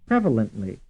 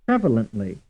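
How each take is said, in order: No difference in how they are said.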